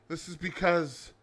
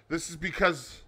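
No difference in how they are said.

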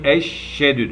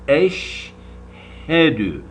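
First: Eşhedü said with the h swallowed, like eşşedü; wrong pronunciation. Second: Eşhedü very slow, the h breathed clearly; correct pronunciation. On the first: Teacher showing students the common mistake, h dropped. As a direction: drop the h in eşhedü, as careless readers do. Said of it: "Yanlış bunlar". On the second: Teacher showing students the right way, slow and clear. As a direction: stretch eşhedü and let the h be heard. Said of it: "Doğrusu". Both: Shown as a demonstration.

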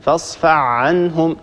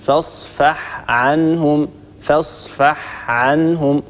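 First: فاصفح عنهم slowly with the ح swallowed into the ع, as fesfa ʕenhum; slow sloppy فاصفح عنهم, ح lost; wrong merged version. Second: فاصفح عنهم very slow, ح clearly said then ع; slow and deliberate, separate ح from ع; correct careful reading. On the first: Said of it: "يقول هكذا". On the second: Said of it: "ننطق الحاء وننطق بعدها العين". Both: Shown as a demonstration.

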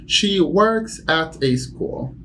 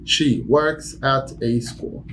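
First: Slow, with "works" lifted; slow model sentence. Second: Slow plain repeat. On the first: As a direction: model it slowly for learners. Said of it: "teacher demo sentence". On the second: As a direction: say it once more slowly. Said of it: "repeated demo". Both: Shown as a demonstration.

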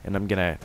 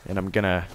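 No difference in how they are said.

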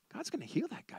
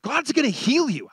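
First: Hushed, private realisation; very soft, to yourself; inward thought. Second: Raised, emphatic promise to someone; higher, firm pronouncement; preached declaration. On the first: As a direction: think it aloud, very softly. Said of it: "I thought". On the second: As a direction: declare it out to the room. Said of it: "as I was preaching the message, I said". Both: Retold or imitated.

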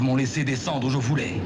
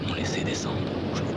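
First: Said in the usual way. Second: Fast, unvoiced-sounding whisper; whispered echo. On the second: Whispered echo of poem line. (écho chuchoté, rapide)

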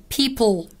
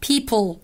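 Both takes have the same delivery.

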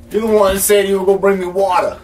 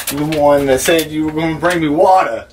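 First: Higher, quicker reminder of a promise; insistent repeat. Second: Said in the usual way. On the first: Acted. Thirsty man reminds visitor about promised water, insistent. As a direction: press the point, pitched up and hurried.

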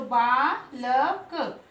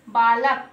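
First: बालक drawn out slowly, letter by letter; sounded out. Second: Said in the usual way. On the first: Shown as a demonstration. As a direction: split बालक into a long बा, then ल, then क. (बालक को अक्षर तोड़कर, धीरे-धीरे) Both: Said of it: "हम तीनों को क्या पढ़ेंगे".

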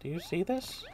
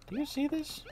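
First: Said in the usual way. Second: Much higher rising do you see this; high playful question. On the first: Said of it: "repeated take". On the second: Acted. Player repeats the question in a high voice. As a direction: say it up high and teasing. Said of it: "higher retake".

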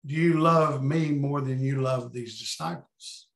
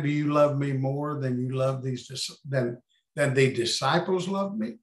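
First: "you" leaned on with a rising end in "Do you love me more than you love these disciples?"; stress on you. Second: "love" leaned on in "Do you love me more than you love these dis-"; stress on love. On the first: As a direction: lift "you" as the key word. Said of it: "or is he saying". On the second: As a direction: lean on "love", the rest even. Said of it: "Or was he saying". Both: Shown as a demonstration.

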